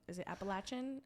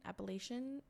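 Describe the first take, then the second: First: "Appalachian" with third syllable as "latch"; "latch" pronunciation. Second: "Appalachian" with third syllable as "lay"; "lay" pronunciation. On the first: Speaker checks how to say "Appalachian", with "latch". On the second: Speaker checks how to say "Appalachian", with "lay". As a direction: say "Appalachian" as app-uh-LAY-shun. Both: Shown as a demonstration.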